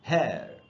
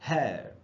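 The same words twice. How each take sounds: The two takes are said the same way.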